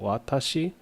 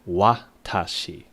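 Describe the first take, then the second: First: The opening W is soft, almost dropped. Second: The opening W is strong and clearly pronounced. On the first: The speaker calls it right. "there's that like soft W" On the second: The speaker calls it wrong. "Where the wa is a very pronounced wa"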